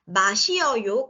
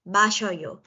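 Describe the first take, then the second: First: The vowels are said apart, in four syllables. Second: The vowels merge into one, in three syllables.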